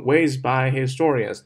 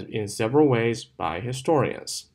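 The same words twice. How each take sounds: First: "ways by historians" with "by" as heavy as the rest; wrong demo, hit "by" as hard as "ways"; all one strength on "ways by historians"; every word equally stressed. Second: "ways" and "historians" stressed, "by" unstressed; light "by", stressed content words. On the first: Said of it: "不要读成". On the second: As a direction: slip lightly over "by" between "ways" and "historians". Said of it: "我们把它读成". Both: Shown as a demonstration.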